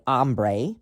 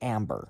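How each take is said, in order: First: It is said with a Spanish pronunciation. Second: It is said like the English word amber. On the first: This is the app's real name. "It's really called Ombre" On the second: This is how the screen reader says it. "we're going to pronounce it Amber"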